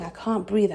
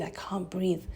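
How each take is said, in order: First: Said in the usual way. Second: Breathless whisper, fading out; a voiceless, gasping whisper; choked whisper. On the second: Retold or imitated. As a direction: whisper it as if air has run out. Retold choking in surgery.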